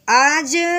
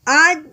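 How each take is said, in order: First: The final j is released with a slight bounce. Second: The final j is held flat without a bounce. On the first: The speaker calls it right. "बल्कि पढ़ेंगे आज, हरूफ कलकला को अपनी जगह से थोड़ा सा हिला देना होता है" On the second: The speaker calls it wrong. "इस तरह नहीं पढ़ना"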